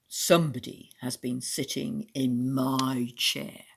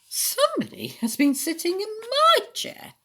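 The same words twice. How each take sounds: First: The voice is deep, gruff and growling. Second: The voice is mellow and medium pitched. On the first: A big father bear is speaking. "in a great, gruff, growling voice" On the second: A medium-sized mother bear is speaking. "in a mellow, middle-sized voice"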